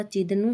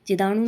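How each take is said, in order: First: Said in the usual way. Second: चिदाणु with long aa, chi-daa-nu; wrong pronunciation. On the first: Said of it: "होता है". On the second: Shown as a demonstration. Teacher rejecting a word, चिदाणु said chi-daa-nu. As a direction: stretch the middle vowel of चिदाणु. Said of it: "नहीं होता".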